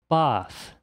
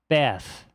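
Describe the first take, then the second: First: It is said in a standard British accent. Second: It is said in a standard American accent.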